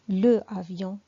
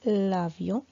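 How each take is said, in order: First: The article keeps its vowel before the noun. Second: The article loses its vowel and joins the noun. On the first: The speaker calls it wrong. "Je ne peux pas dire le avion, C'est faux" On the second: The speaker calls it right. "je fais la liaison et on dit l'avion"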